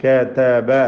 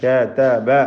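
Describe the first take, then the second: The two takes are said the same way.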